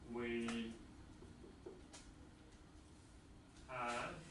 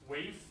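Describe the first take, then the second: First: It is said as two full words. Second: It is said as one contracted syllable. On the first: "The transcription says we have" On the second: "say it's we've"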